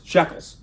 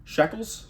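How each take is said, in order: First: "Shekels." stated flatly with a falling end; confident answer. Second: Unsure question, pitch rising at the end on "Shekels?"; questioning rise. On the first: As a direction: land "Shekels." as the final answer. Settling on the currency name. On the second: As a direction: guess "Shekels?" as a doubtful question. Guessing the currency name. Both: Pretend.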